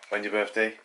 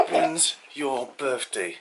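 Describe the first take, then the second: First: Said in the usual way. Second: Slow laughing repeat. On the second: Real, not acted. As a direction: stretch it out through laughter. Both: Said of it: "I said".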